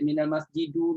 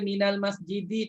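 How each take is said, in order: First: The word ends with a u vowel. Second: The word ends with an i vowel. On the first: The speaker calls it wrong. "tak baca minal masjidu" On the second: The speaker calls it right. "Dibaca minal masjidi"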